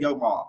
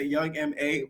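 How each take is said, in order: First: MA is spoken as a single word. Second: MA is spoken as two separate letters. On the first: This is the speaker's own habitual way of saying the name. "I always say Young Ma" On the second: This is how most other people say the name. "A lot of people always used to say Young M A"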